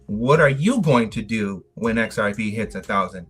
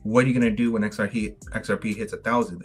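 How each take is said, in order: First: It is said with a statement tune. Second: It is said with a questioning tune. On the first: The speaker already knows something will happen. The speaker calls it right. "It's more of a statement. That's the that's the tone behind it" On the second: The speaker is genuinely asking. The speaker calls it wrong. "they're not"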